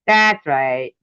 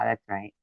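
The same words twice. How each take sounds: First: "That's right." repeated louder, pointed; sarcastic louder repeat; louder sarcasm. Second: "that's right." muttered low and soft; dropped quietly to yourself; soft sarcastic aside. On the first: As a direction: snap it back louder. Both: Real, not acted.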